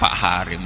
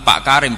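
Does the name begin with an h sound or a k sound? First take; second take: h sound; k sound. First: The name begins with an h sound. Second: The name begins with a k sound. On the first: This is how Javanese people say it. "Lah yo muni kaf digenti hak" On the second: This is the intended name. "Tapi nak muni"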